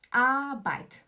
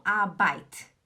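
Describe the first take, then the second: First: "AAH-bait"; stress on A. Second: ARBEIT weighted on the second syllable, "ah-BAIT"; "Arbeit" with a short A and heavy ending; wrong stress. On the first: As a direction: punch the first A of Arbeit. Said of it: "O tom tá no A". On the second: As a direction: push the "beit" of Arbeit. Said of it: "não Arbeit". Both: Shown as a demonstration.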